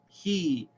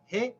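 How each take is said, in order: First: The vowel is held long. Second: The vowel is kept short. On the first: The speaker calls it right. "pronounce it with the long vowel" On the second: The speaker calls it wrong. "instead of"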